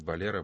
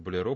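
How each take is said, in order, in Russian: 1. Слово произнесено по-испански. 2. Слово произнесено по-французски. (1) "по-испански болеро" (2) "По-французски болеро"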